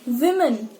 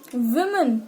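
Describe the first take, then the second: Both takes have the same delivery.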